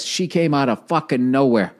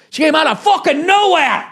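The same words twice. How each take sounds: First: Said in the usual way. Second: Much higher and louder, an exclaimed shout on nowhere; incredulous outburst. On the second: Retold or imitated. Comedian telling the host about the ambush, shouting in mock outrage. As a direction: blurt it out like the shock still stings.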